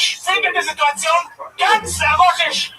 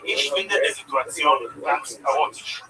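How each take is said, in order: First: It is yelled loudly and forcefully. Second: It is spoken at a calm, normal volume.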